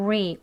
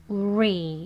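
First: "리" as wree, with an 우 lead-in; rounded English R. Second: "리" with no rounded lead-in; plain ree. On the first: Teacher modelling the R, lips rounded first. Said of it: "우 소리 중간에". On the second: Teacher showing the less preferred version, unrounded. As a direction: say "리" straight off as ree. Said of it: "그냥 리보다는". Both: Shown as a demonstration.

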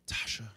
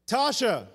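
First: Hushed, whispered call; whispered name. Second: Raised-voice call of a name; mock yell. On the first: Retold or imitated. Husband lowering his voice to his wife, whispering. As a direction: whisper it softly to get attention. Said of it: "I lowered my voice and I whispered". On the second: Husband calling wife who doesn't hear him, mock yell. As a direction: call out to someone not hearing. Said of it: "yelling at the top of my lungs".

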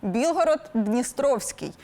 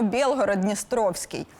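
First: Білгород-Дністровський with "і" in Біл-; Ukrainian і vowel. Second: Білгород-Дністровський with "є" in the first syllable, Бєл-; Russian є vowel. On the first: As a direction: say Bil-horod in Білгород-Дністровський. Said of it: "і, а в російській є". (українське «і»: Білгород-Дністровський) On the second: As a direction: say Biel-horod in Білгород-Дністровський. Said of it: "а в російській є". («є» замість «і»: Бєлгород-Дністровський) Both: Shown as a demonstration.

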